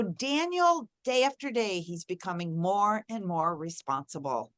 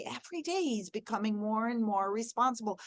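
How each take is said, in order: First: Hopeful, upbeat telling of a growing virtue; positive affirmation. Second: Softer, steady hopeful affirmation; positive affirmation. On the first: Mother speaking hope over her son, gently upbeat. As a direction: speak the kind words you want to come true. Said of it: "So I could say that I would say". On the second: Mother repeating a hopeful word about her son, softly. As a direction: say it as a quiet promise. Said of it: "but I could say". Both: Shown as a demonstration.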